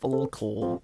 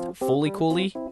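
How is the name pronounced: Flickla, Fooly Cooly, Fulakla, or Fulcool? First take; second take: Fulcool; Fooly Cooly. First: It is said as two syllables, fool-kool. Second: It is said as four syllables, foo-lee koo-lee. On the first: The speaker calls it wrong. "some people pronounce it as Fulcool" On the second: The speaker calls it right. "it is actually pronounced Fooly Cooly"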